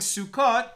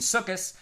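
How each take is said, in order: First: The word ends with a t sound. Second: The word ends with an s sound.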